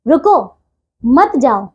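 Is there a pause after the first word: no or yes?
yes. There is a pause after the first word. "शुद्ध प्रयोग है ये"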